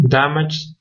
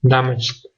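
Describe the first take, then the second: First: Damaged said as dam-ij, no final sound; base verb first. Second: Damaged with an added final d sound, dam-ijd; past ending shown. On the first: Teacher says Damaged as the bare verb for learners, clear pron. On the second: Teacher shows the added past ending on damaged, clear pron. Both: Shown as a demonstration. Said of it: "E D sounds D when the verb ends in a voiced sound".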